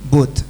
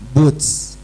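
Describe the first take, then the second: First: The final t ends with a light hiss. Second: The final t ends with a strong s sound. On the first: The speaker calls it right. "Persis kan?" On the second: The speaker calls it wrong. "Salah. Itu sin"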